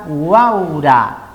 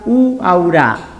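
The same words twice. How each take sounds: First: The stress falls on the A. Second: The stress falls on the first U. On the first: The speaker calls it right. "Si pongo el acento en la A sería uaura" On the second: The speaker calls it wrong. "en la primera U sería uaura"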